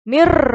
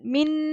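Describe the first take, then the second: First: The n merges into the following r sound. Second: The final n sound is clearly pronounced. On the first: The speaker calls it right. "kita tak bunyi nun tapi kita bunyi huruf ra" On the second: The speaker calls it wrong. "Dia tak bunyi min"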